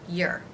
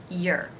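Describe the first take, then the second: The two takes are said the same way.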